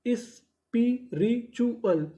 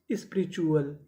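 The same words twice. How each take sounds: First: spiritual very slow and higher, broken into is-pi-ri-chu-al; syllable by syllable. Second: Said in the usual way. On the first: Shown as a demonstration. Teacher joining the codes for learners, spiritual syllable by syllable. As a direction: sound out spiritual piece by piece with gaps. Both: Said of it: "तो पूरी meaning".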